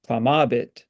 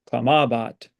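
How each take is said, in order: First: "clamabit" stressed on ma; stress on the penult. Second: "clamabat" stressed on ma; stress on the penult. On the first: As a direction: lean on the middle syllable of "clamabit". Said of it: "or we say clamabit". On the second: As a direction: lean on the middle syllable of "clamabat". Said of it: "So we say clamabat". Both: Shown as a demonstration. Teacher modeling Latin stress for students.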